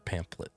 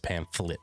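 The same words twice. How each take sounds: First: The middle consonant is a P sound. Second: The middle consonant is an F sound. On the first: The speaker calls it wrong. "like with a P, P sound instead of an F sound" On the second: The speaker calls it right. "It's it's pamphlet"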